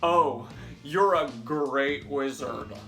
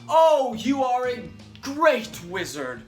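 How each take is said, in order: First: It is said in a sarcastic tone. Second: It is said in a flattering tone.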